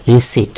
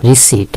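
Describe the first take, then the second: First: রিসিপ্ট without the P, "ri-sit"; silent P. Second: রিসিপ্ট with P sounded before T, "ri-sipt"; mispronounced receipt. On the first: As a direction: say রিসিপ্ট ending straight on T. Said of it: "এখানে পি হচ্ছে silent letter". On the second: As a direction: put an audible P in রিসিপ্ট. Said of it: "আমরা রিসিপ্ট বলি না". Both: Shown as a demonstration.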